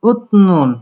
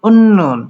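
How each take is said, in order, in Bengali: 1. n-এর আগে t ধ্বনি আসে। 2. একটি দ্বিত্ব n ধ্বনি শোনা যায়।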